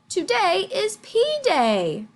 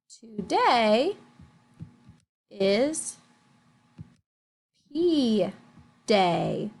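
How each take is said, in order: First: It is said in an excited, lively way. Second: It is said in a flat, plain way.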